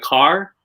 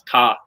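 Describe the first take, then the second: First: The R sound is clearly pronounced. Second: The R sound is dropped. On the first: The speaker calls it right. "you pronounce the R" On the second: The speaker calls it wrong. "you don't pronounce R at all"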